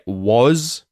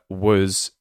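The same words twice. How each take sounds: First: The vowel is full and clear. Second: The vowel is reduced to a schwa. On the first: "Do you hear it as a clear was" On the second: "more like a was; we're completely reducing the vowel sound"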